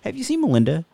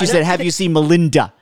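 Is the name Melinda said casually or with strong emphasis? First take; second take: casually; emphasis. First: The name is said casually, without emphasis. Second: The name is said with strong emphasis. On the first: The slip passed unnoticed. "it wasn't real pronounced" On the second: The slip would have stood out. "It wasn't"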